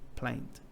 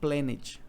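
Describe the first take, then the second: First: The -ed ending adds no extra syllable. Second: The -ed ending is sounded as an extra syllable. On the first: The speaker calls it right. "Porque ela é plant" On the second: The speaker calls it wrong. "você não vai dizer planet"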